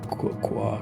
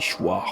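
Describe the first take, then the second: First: The word is read with English pronunciation. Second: The word is read with French pronunciation. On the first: "See, you pronounce the O, the I, the R" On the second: "If I read it like a French choir like this"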